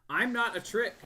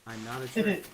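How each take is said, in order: First: It is said in a different character's voice. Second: It is said softly in a deep, echoey voice.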